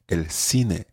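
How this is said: Latin American accent: the c sounds like s.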